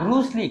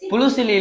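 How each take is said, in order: First: The name begins with a 'br' sound. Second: The name begins with a 'bl' sound. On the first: The speaker calls it right. "கரெக்டா சொல்லுங்க பேரை" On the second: The speaker calls it wrong. "புளுசிலி இல்லம்மா"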